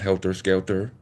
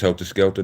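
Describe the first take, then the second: First: The words end in a clear 'er' sound with R. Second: The words end in an 'ah' sound without R. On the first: The speaker calls it wrong. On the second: The speaker calls it right. "It's helter skelter, A H in helter skelter, no E's and R's"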